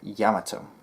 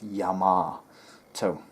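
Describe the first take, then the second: First: It is said with Japanese vowels and rhythm. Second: It is said with American vowels, like R. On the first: "the Japanese way" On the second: "the English American way"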